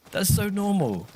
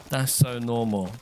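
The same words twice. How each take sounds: First: Indignant protest. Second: Said in the usual way. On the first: Real, not acted.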